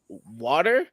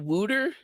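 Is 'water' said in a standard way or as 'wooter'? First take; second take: standard; wooter. First: The first vowel is plain, as in standard 'water'. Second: The first vowel sounds like 'oo', as in 'wooter'. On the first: This is how the speaker's group says it. The speaker calls it right. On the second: This is how a Philadelphia friend said it. The speaker calls it wrong.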